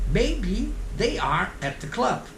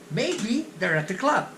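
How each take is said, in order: First: They are is said as two full words. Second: They're is contracted and linked into at. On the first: It is stiff textbook speech. "O normal seria você falar quadradinho" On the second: It is how people really talk on the street. "Mas é assim que eles falam na rua"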